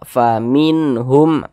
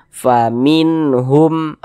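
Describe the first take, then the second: First: The n sound is short and clear. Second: The n sound is short and clear.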